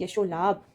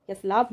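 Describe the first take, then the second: First: यशो लाभ said as "ya-sho-laabh"; correct linking o. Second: यश लाभ said as "yash-laabh"; wrong, no linking o. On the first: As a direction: clear long o before the l in यशो लाभ. (यशो लाभ में "शो" बोलें) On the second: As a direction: run sh straight into l in यश लाभ. (यश लाभ में ओ नहीं) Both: Shown as a demonstration. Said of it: "यश लाभ नहीं".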